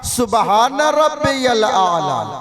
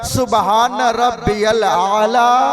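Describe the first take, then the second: No difference in how they are said.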